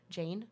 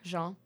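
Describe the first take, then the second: First: The name is said with an English pronunciation. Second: The name is said with a French pronunciation. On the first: The speaker calls it wrong. "That's not, no" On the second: The speaker calls it right. "that's how you would pronounce it in French"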